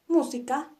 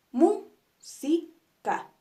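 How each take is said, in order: First: Said in the usual way. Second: "música" very slowly split mú-si-ca, "mú" stressed; syllable by syllable. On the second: Shown as a demonstration. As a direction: break "música" into beats, punching "mú". ("música" lento, mú-si-ca, con fuerza en "mú") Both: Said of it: "las vamos a dividir en sus partes".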